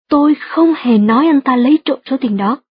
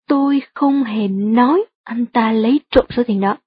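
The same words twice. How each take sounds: First: The words không hề are stressed. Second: The word nói is stressed. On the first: The speaker fully denies ever saying it. "nếu bạn nhấn mạnh từ không hề trong câu" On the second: The speaker implied it but did not actually say it. "Nếu bạn nhấn mạnh từ nói trong câu"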